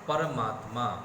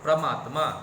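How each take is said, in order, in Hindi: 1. शब्द की शुरुआत 'par' अक्षर से होती है। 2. शब्द की शुरुआत 'pra' संयुक्त व्यंजन से होती है। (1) "जैसे परमात्मा" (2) "बच्चे क्या करते हैं? प्रमात्मा"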